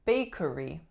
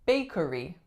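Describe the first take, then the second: Both takes have the same delivery.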